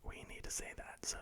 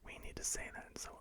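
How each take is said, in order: Both takes have the same delivery.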